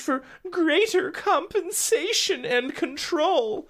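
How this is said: It is said in a light, fluffy promotional voice. The news is presented as harmless corporate talk. The speaker calls it wrong. "I shouldn't even do my fluffy PR voice there"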